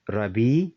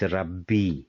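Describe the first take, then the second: First: The b is short and light, not held. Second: The b is strong and held, doubled. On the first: The speaker calls it wrong. "It is not Rabbi" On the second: The speaker calls it right. "but it is Rabbi"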